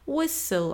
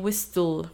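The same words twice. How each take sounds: First: The T sound is silent. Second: The T sound is clearly pronounced. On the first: The speaker calls it right. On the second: The speaker calls it wrong.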